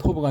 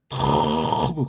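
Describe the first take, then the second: First: The word is said plainly, without emphasis. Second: The word is said with strong, resonant emphasis. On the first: The speaker calls it wrong. "그냥 토브가 아니고" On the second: The speaker calls it right. "그렇게 발음을 해야 그 맛이 울려나요"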